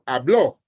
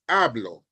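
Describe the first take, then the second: First: The stress is on the last syllable. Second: The stress is on the first syllable.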